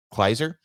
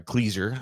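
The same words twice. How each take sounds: First: "Kleiser" said as KLY-zer; "Kleiser" rhyming with "miser", tentative; unsure pronunciation. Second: "Kleiser" said as KLEE-zer; "Kleiser" with first syllable like "klee"; alternate pronunciation. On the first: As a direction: say "Kleiser" with a long i, questioningly. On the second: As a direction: say "Kleiser" with an ee sound. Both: Shown as a demonstration. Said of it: "however you say that".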